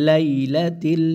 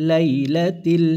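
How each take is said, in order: The two takes are said the same way.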